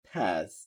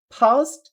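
First: Low, softer American "fast" with AE; American accent. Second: High British "fast" with open AH; British accent. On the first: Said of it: "আমেরিকানরা বলতেছে অ্যা". (American উচ্চারণে) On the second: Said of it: "এই যে আ". (British উচ্চারণে) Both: Shown as a demonstration.

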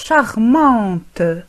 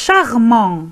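First: "charmante" closing on an audible T; slow "charmante", release the T clearly at the end; sounded final T. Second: "charmant" ending on a nasal vowel, no T; silent final T. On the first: Teacher showing the feminine form, "charmante" with T pronounced. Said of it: "ونقرأ حرف T". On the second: Teacher showing the masculine form, "charmant" with silent T. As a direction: leave the T of "charmant" unspoken. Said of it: "أيضًا لا نقرأ، آه، الحرف T". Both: Shown as a demonstration.

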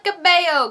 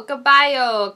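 First: "Cabello" with a BAY middle, ka-BAY-oh; unsure pronunciation. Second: "Cabello" with a BYE middle, ka-BYE-oh; unsure pronunciation. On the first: Reviewer unsure of singer's name, "[name]" as ka-BAY-oh. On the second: Reviewer unsure of singer's name, "Cabello" as ka-BYE-oh. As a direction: say "Cabello" as ka-BYE-oh, trying another guess. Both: Acted. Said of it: "I don't know how to say your name".

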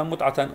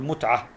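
First: متعة with the final ta sounded as t, mutʕata; متعة read as mutʕata before the sukun; final ta voiced. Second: متعة ending on h, mutʕa, final ta stilled with sukun; متعة read as mutʕah at a pause; final ta silenced. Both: Shown as a demonstration. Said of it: "أسكنها، أقول متعة".

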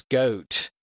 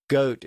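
First: "goat" with a long, stretched O; extended O. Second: Said in the usual way. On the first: Shown as a demonstration. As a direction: draw out the O in "goat" slowly. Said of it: "O sound also had an extended sound". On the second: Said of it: "the O sound also had an extended".

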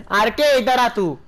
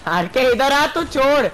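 First: Slow, loud call stressing R K; drawn-out call. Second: High, loud call to a teammate. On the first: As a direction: stretch out the name R K loudly. Calling teammate RK again. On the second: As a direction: yell for RK to come over. Calling teammate RK over. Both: Real, not acted.

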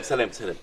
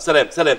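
First: Softer goodbye that trails away; fading goodbye. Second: Said in the usual way. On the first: Acted. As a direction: let the سلام، سلام die off as you hang up.

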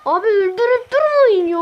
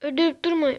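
First: Pleading shout. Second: Said in the usual way. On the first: Real, not acted. Begging other players.

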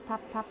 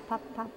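Both takes have the same delivery.

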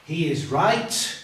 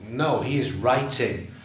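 First: "He is right" said slowly, rising on "right"; mock error for the class; wrong form. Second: "writing" stressed and falling; teacher fixing the verb; correction. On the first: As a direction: float "right" as a doubtful guess. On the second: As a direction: correct it firmly, landing on "writing". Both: Shown as a demonstration.

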